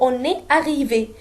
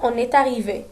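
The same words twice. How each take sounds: First: The words are said separately without linking. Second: The words are linked with a liaison sound. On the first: "normalement كنقولوا" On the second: "كنديروا واحد la liaison"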